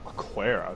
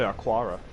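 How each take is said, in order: First: The vowel before the r sounds like 'eh'. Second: The vowel before the r sounds like 'ah'. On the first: The speaker calls it wrong. "That's a weird way of pronouncing it" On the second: The speaker calls it right. "I wouldn't have a sharp A there"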